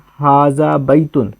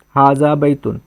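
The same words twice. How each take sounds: First: हाजा बैतुन read slowly, word by word. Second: Said in the usual way. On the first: Shown as a demonstration. Teacher reading the Arabic phrase slowly to students. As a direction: spell out हाजा बैतुन at a careful pace. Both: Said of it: "इसका ये क्या लिखा है?".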